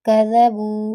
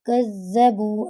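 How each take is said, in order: First: The middle consonant is short, not doubled. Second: The middle consonant is doubled and held longer. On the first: They denied it. "कज़बू यहाँ पे शद नहीं है" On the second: They lied. "खुद से शद लगाकर पढ़ दें"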